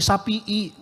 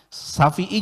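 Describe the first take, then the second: First: The middle consonant is a P sound. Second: The middle consonant is an F sound. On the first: "Kalau orang Sunda bilang pakai P" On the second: "bukan F"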